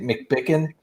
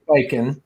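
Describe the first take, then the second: First: The name is said with a 'bicken' ending. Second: The name is said with a 'biken' ending. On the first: The speaker calls it wrong. "I used to mispronounce his name too. I used to say McBicken" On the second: The speaker calls it right. "but it is McBiken"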